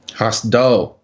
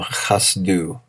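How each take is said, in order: First: "Chasdo" with a final o; corrected chasdo. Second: "chasdu" ending in u instead of o; mispronounced chasdu. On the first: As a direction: say "Chasdo" ending in o. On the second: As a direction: say "chasdu" with a final u. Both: Shown as a demonstration.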